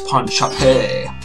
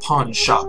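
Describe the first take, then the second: First: Shop ends with an added French-style 'ay' syllable. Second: Shop ends plainly with no extra syllable. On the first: The speaker calls it right. "That the E means it's French" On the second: The speaker calls it wrong. "It's not pawn shop"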